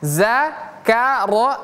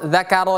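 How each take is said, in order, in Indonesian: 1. Dimulai dengan bunyi 'z' biasa. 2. Dimulai dengan bunyi 'th' bersuara. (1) "kalau pakai huruf zai" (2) "pakai zal"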